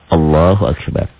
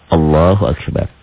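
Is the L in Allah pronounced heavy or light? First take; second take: heavy; heavy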